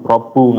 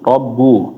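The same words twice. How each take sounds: First: The doubled b is released with a forceful jolt. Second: The doubled b only closes the lips, no jolt. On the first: The speaker calls it wrong. "nggak usah sampai ada hentakan robbu" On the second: The speaker calls it right. "Jadi cuma menutup bibir aja"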